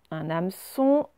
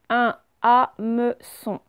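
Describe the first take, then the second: First: Said in the usual way. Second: HAMEÇON slowly as HA-ME-ÇON; slow, separated syllables in HAMEÇON; split into syllables. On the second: Shown as a demonstration. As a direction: sound out HAMEÇON beat by beat. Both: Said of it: "on va prendre mot par mot".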